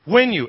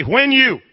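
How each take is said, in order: First: Said in the usual way. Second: Louder prompt. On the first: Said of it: "Everybody say". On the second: Shown as a demonstration. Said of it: "Come on, say".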